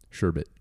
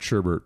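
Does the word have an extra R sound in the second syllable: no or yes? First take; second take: no; yes. First: The second syllable has no R sound. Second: The second syllable has an extra R sound. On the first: The speaker calls it right. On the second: The speaker calls it wrong.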